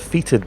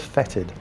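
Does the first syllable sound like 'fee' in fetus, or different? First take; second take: like fetus; different. First: The first syllable sounds like 'fee' in fetus. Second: The first syllable does not sound like 'fee'. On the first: The speaker calls it wrong. "I've been mispronouncing the name of that thing. I've been calling it a fetid" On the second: The speaker calls it right. "It's actually pronounced fetid"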